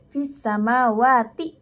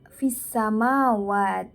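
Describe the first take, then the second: First: The word ends on ti and runs into the next. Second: The word stops on t, with no final vowel. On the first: The reader continues without pausing. "kalau itu dibaca wasol bersam nyambung ya, itu cara bacanya" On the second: The reader pauses after the word. "ketika bacaan itu diwakofkan maka dibaca fisamawat"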